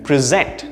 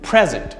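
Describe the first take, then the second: First: The stress is on the second syllable. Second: The stress is on the first syllable. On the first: It is the verb meaning to show or give a presentation. "Notice the stress on the second syllable there" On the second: It is the noun meaning a gift. "Notice the stress on the first syllable there"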